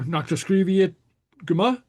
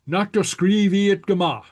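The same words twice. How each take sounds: First: It is said as a question. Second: It is said as an exclamation.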